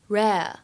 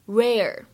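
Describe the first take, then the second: First: It is said in a British accent. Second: It is said in an American accent. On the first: "在英式英语当中呢，它读作rare rare" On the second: "而在美式英语当中呢，它读作rare rare"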